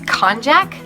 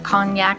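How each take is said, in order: First: It is pronounced unlike the word cognac. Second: It is pronounced like the word cognac. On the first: The speaker calls it right. "I think it's konjac" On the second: The speaker calls it wrong. "I think I said that wrong. ... I, for some reason, pronounce it cognac"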